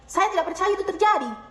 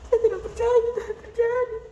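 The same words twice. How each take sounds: First: It sounds angry, high-pitched and firm. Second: It sounds sad and downcast. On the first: "Marah, nada tinggi, tegas"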